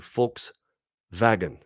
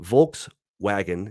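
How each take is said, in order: First: The W is said with a V sound. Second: The W is said with an English W sound. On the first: "is actually a Volkswagen... the W is actually a V sound" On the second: "when you drive a"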